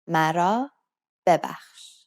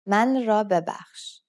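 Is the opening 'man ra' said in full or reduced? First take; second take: reduced; full. First: The first two words merge into one short 'mara'. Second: The first two words are said separately as 'man ra'. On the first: This is the everyday spoken form. "the way we say this phrase is different than the way it's actually written" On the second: This is the form as it is written. "The proper way is"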